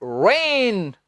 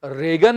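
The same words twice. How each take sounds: First: रेन said like rain; silent g. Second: रेगन with hard g; wrong pronunciation. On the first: Teacher giving correct रेन for reign. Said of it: "इसका उच्चारण है". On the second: Teacher showing wrong रेगन. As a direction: say रेगन sounding g. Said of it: "रेगन नहीं". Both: Shown as a demonstration.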